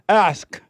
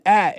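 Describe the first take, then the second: First: The final k sound is clearly heard. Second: The final k sound is not clearly heard. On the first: The speaker calls it right. "I make sure I hit that K" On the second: The speaker calls it wrong. "you're saying at and not ask"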